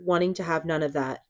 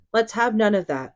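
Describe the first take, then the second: First: Said in the usual way. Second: Higher and louder, cutting him off; stern rebuke. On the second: Acted. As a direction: shut the complaint down firmly.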